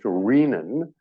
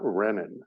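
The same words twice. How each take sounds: First: The first syllable sounds like the start of 'renal'. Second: The first syllable sounds unlike the start of 'renal'. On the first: The speaker calls it right. "is pronounced renin, as in renal" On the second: The speaker calls it wrong. "It is not renin"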